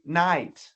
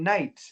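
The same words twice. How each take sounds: First: It is said with an American accent. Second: It is said with a Canadian accent.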